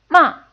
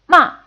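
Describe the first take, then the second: Both takes have the same delivery.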